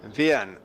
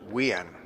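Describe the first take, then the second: First: The name begins with a V sound. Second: The name begins with a W sound. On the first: The speaker calls it right. "but it is Vian. ... his parents with a with a V" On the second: The speaker calls it wrong. "or Wian"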